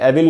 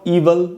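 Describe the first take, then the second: First: The first vowel is a short 'eh' sound. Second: The first vowel is a long 'ee' sound. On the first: The speaker calls it wrong. "कई बार लोग एविल भी पढ़ लेते हैं, एविल नहीं होगा" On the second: The speaker calls it right. "ईवल में भी बड़ी ई का साउंड है"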